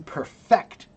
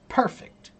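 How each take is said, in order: First: The stress is on the second syllable. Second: The stress is on the first syllable. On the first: It is the verb, meaning to make flawless. "you have to put the accent on the second syllable" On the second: It is the adjective, meaning without flaw. "perfect means the adjective"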